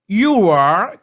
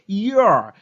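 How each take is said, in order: First: Two separate words are said in full. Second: The words merge into one short syllable.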